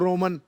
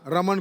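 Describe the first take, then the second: First: The first vowel sounds like 'o'. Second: The first vowel sounds like 'a'.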